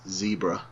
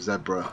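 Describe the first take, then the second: First: It is said in an American accent. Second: It is said in a British accent.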